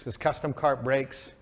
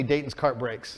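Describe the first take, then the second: First: "custom" and "cart" drawn out slowly for weight; slow down and lean on "custom cart"; slow stress on custom. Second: Said in the usual way. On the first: Shown as a demonstration.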